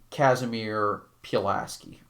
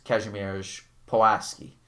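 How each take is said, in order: First: The name is pronounced the American way. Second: The name is pronounced the Polish way.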